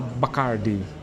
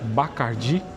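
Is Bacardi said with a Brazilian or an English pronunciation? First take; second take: English; Brazilian. First: The name is said with English pronunciation. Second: The name is said with Brazilian Portuguese pronunciation. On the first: "chama Bacardi. ... a pronúncia é bem diferente" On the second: "ao invés de chamar Bacardi"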